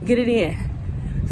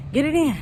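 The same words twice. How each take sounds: First: Slow, softer, each word weighted; slow and emphatic. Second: Said in the usual way. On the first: Shown as a demonstration. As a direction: press it home slowly.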